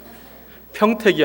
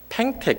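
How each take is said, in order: First: The first syllable has the standard 'yeo' vowel. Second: The first syllable has a regional 'ae' vowel. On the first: "평택이 아니라" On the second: "이 여 발음이 안 되거든요"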